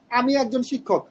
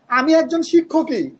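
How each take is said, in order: First: আমি said firmest, rest falling away; stress on আমি. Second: শিক্ষকই pressed with the emphatic ই, raised and louder; stress on শিক্ষকই. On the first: Teacher showing students stress on আমি. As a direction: lean on আমি in আমি একজন শিক্ষক. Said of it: "এখানে আমির উপর জোর দিছি". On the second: Teacher contrasting stress, now on শিক্ষকই. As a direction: push the word শিক্ষকই home. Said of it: "শিক্ষকের উপর জোর দিছি". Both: Shown as a demonstration.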